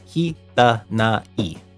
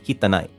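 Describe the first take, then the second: First: The word has four separate beats, ki-ta-na-i. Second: The final na and i merge into one beat. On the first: "You're actually supposed to pronounce that as if it were four syllables" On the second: "conversationally it sounds like you're you're saying the na e as like nai nai"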